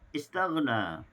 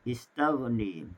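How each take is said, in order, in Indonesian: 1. Vokal akhir adalah 'a' terbuka. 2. Vokal akhir condong ke 'e'.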